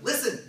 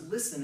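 First: Put-on a dad snapping at his kid, louder and higher; Listen as a sharp fatherly call; stern dad. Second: Said in the usual way. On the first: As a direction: bark it like a father whose kid won't listen. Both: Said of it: "it's what a dad would say to his kid".

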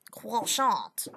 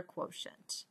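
First: Emphatic mock-French accent. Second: Said in the usual way. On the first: Shown as a demonstration. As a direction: hit the last syllable in a put-on French accent. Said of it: "Sounds French". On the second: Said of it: "our answer is our quotient".

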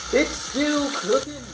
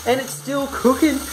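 First: Slow, high-pitched marvelling; drawn-out repeat. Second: Higher, lively cooking commentary; excited announcement. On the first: Vlogger marvels that bacon is still cooking, drawn out. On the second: Vlogger updates viewers on the cooking bacon, excited. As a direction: announce it with raised pitch. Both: Pretend.

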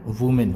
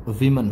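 First: वुमेन with "oo" in the first syllable; wrong plural pronunciation. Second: वीमन with "vi" in the first syllable; correct plural pronunciation. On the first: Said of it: "ना कि वुमेन होता है". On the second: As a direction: say वीमन as WI-min, first vowel like "ee". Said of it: "इसका plural वीमन होता है". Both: Shown as a demonstration.

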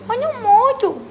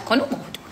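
First: "Quando morto" much higher, punchline; joking, much higher "Quando morto" repeated for the punchline; higher emphatic repeat. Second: Said in the usual way. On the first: Shown as a demonstration. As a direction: hit "Quando morto" high as a joke. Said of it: "repeat with emphasis".

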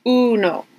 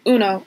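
First: Uno with the u held twice as long; long drawn uno. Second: Said in the usual way. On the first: Shown as a demonstration. Teacher modelling the long vowel for students, drawn out. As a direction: stretch the u in uno. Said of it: "just kinda say it twice as long". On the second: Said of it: "instead of just".

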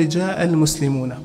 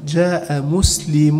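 First: "المسلمون" with the final noon sounded; full plural noon. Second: "مسلم" ending on a held -u, no n; noon dropped. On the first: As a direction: say "المسلمون" as al-muslimuna, ending in -na. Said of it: "عوض عن التنوين". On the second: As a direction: say "مسلم" as muslimu, long final u. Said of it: "نون كما لا هذا". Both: Shown as a demonstration.

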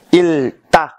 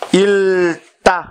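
First: 읽다 said as 익따, stressing the k sound; correct pronunciation. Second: 읽다 said slowly, each sound clear, as 익따; slow model reading of 읽다 for students; careful pronunciation. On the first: Teacher gives the right reading of 읽다, clear and firm. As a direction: repeat 읽다 with the k sound held clearly. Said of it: "phát âm là 읽다". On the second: Teacher models 읽다 slowly for the class, clear and careful. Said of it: "đọc tiếng Hàn là". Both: Shown as a demonstration.

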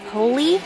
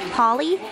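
Both takes have the same delivery.

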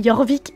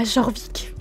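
First: Jorvik said with a Y sound, "Yorvik"; J of Jorvik pronounced as a Y glide; official Y pronunciation. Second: Jorvik said with a French J, "Jorvik"; J of Jorvik buzzed as in "jour"; mistaken J pronunciation. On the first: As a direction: begin Jorvik like "yor", not "jor". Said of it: "c'était Jorvik la prononciation". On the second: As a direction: begin Jorvik with a "zh" sound, not a Y. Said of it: "et pas Jorvik". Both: Shown as a demonstration.

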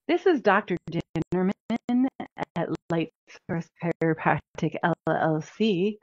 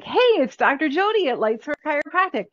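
First: Stiff corporate phone intro; stiff formal greeting. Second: Upbeat, higher, like greeting your best friend; breezy sisterly hello, on the phone; casual friendly greeting. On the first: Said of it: "It's not the way that I talk". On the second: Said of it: "I'm everybody's sister. I'm everybody's B F F". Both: Shown as a demonstration.

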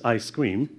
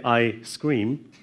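First: "I scream" joined up like ice cream; run-together words. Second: Short pause between I and scream; "I scream" as two separate words, I, then scream; deliberate word break. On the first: Lecturer testing students on the difference, run-together words. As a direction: say "I scream" with no break after I. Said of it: "can you tell the difference". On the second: Lecturer showing students speech ambiguity, deliberate word break. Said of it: "I was deliberate there". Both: Shown as a demonstration.

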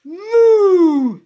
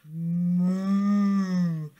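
First: Huge, high, long moo; full-volume high-pitched mooing yell; shouted moo. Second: Sustained humming moo; cow mooing. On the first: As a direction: blast it out to startle a bird. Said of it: "he shouted". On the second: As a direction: moo like a placid cow, drawn out and loud. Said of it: "The cow looked at him". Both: A narrator's reading.

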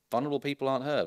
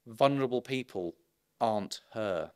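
First: One unbroken run, landing on her with a fall; restated with stress on her. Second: Vulnerable people, a pause, then aren't her falling; slow emphatic statement. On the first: To the audience, repeating the point, stress on her. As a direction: say it straight through, hitting her. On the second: To the audience, stressing who is vulnerable, slow and emphatic. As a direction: split it with a pause and land on aren't. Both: Shown as a demonstration.

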